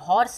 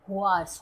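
First: The word starts with a plain 'hor' sound. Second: The word starts with a gliding 'hwar' sound. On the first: The speaker calls it wrong. "हॉर्स नहीं है" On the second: The speaker calls it right.

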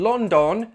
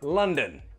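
First: The second syllable has a full, clear vowel. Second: The second syllable has a weak schwa vowel. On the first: The speaker calls it wrong. "I'm not in London, no" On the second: The speaker calls it right. "the second syllable is weak and has that schwa sound"

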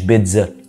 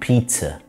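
First: The middle consonant is a plain z sound. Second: The middle consonant is a ts sound. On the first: The speaker calls it wrong. "مش بيتزا" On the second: The speaker calls it right. "الزي بتتنطق تي اس هنا"

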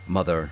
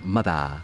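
First: It ends in a strong r-colored vowel. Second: It ends in an open vowel with no r. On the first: "whereas Americans, we chomp down" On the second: "They hold their mouths open at the end"

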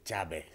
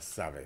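First: The name begins with a tch sound. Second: The name begins with an s sound. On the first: This is how the local people say it. The speaker calls it right. "c'est Tchabet" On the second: This is how most people in the country say it. The speaker calls it wrong. "pour le Tchabet lui-même, ce n'est pas Savet"

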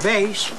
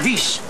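First: The vowel is the standard Dutch ij diphthong. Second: The vowel is a plain dialect ie sound. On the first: "Wies of wijs" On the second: "wordt wies"

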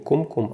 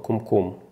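First: The stress is on the first syllable. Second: The stress is on the last syllable. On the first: The speaker calls it wrong. "правильно говорить не кумкум" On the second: The speaker calls it right. "Когда ударение ставится на последний слог, то это называется на иврите бемилра"

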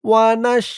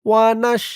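No difference in how they are said.

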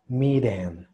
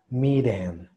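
First: The middle consonant is a quick R-like flap. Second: The same.

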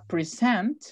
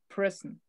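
First: The stress is on the second syllable. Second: The stress is on the first syllable. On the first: It means a gift. "Y si yo pongo el acento en la segunda" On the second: It means the present time. "Ahí la sílaba tónica es present"

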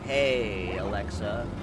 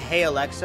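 First: It is said in a subtly flirtatious tone. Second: It is said in a plain, neutral tone. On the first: The speaker is subtly hitting on the device. "I've started hitting on my Alexa, but in like pretty subtle ways" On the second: It is an ordinary request to the device. "instead of saying"

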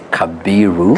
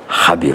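First: The name has a b sound after ka. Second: The name begins with an h sound. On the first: This is how Nairobi and schools say it. "Nairobi and the group of schools they say Kabiru" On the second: This is how the western region says it. "in Western is Habiru"

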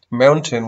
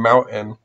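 First: The T in the middle is clearly pronounced. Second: The T in the middle is a throat catch.

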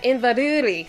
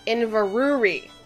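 First: It is said in a Scottish accent. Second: It is said in an American Midwestern accent. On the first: The speaker calls it right. "see, I can say it really well" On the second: The speaker calls it wrong. "or else it sounds like Inverurie. Sounds like you're from the Midwest or something"

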